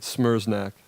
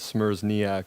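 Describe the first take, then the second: First: The name is said with two syllables. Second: The name is said with three syllables. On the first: The speaker calls it right. "it's two syllables" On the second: The speaker calls it wrong. "I was saying it wrong"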